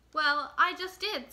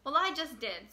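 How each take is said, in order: First: Louder and slow, each word pressed; insistent. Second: Said in the usual way. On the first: Acted. Little Mouse insisting to Mole who laughs at her, loud and slow. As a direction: put your foot down, slowly and firmly.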